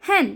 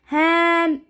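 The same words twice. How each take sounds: First: हैन with a short e, mouth barely open; correct short e. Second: हैन with the mouth opened too wide; wrong wide-mouth hen. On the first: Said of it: "हम कैसे बोल रहे हैं". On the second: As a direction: stretch हैन with a big open vowel. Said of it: "नहीं ना". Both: Shown as a demonstration.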